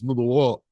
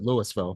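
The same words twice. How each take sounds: First: The word is mumbled, as if through full cheeks. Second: The word is said fully and distinctly. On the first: This is how true locals say it. "if you really are a Kentuckian, it's Louisville ... like you've got a pinch between your cheek and your gum" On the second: This is how people in Colorado say it. "they pronounce it Louisville"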